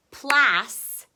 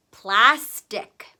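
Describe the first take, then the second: First: "Plas-tick" loud, with a long gap before tick; broken into syllables. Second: Said in the usual way. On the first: Shown as a demonstration. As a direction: split "Plas-tick" for the spellers. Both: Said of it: "break the word apart".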